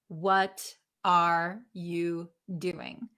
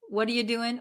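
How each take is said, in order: First: Every word is pronounced fully and separately. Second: The words are reduced and run together. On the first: The speaker calls it wrong. "will they pronounce every single word" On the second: The speaker calls it right. "They're going to say"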